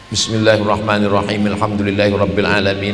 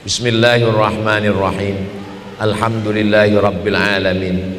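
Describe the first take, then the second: First: The verses run together without a breath. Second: A breath pause separates the two verses. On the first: The whole passage is read in one breath. "bisa Fatihah satu nafas" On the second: Each verse gets its own breath. "Jadi Fatihah itu tujuh nafas"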